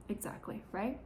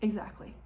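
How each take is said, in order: First: Whispered Exactly, much softer; whispered agreement. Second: Said in the usual way. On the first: Real, not acted. Vlogger whispers Exactly to her viewers, conspiratorial.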